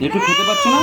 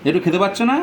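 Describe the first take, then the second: First: High mock-baby squeak; squeaky baby voice. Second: Said in the usual way. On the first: Teasing the baby daughter in a squeaky voice. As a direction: tease her in a tiny high voice.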